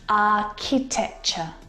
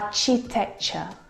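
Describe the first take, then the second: First: The middle sound is a k as in cat. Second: The middle sound is a ch as in cheese. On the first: The speaker calls it right. "The C H sound in this word is a K sound, like in cat" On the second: The speaker calls it wrong. "I hear architecture. ... Which is incorrect"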